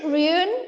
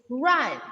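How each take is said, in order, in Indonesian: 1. Vokalnya terdengar seperti 'u'. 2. Vokalnya terdengar seperti 'a'. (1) "But is it run? No, right?" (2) "alfabet U sounds as A"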